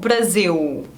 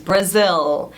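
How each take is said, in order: First: The final L has no tongue contact behind teeth. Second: The final L has the tongue behind the teeth. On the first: The speaker calls it wrong. "mas não Brasil" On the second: The speaker calls it right. "você coloca a língua aqui atrás dos dentes"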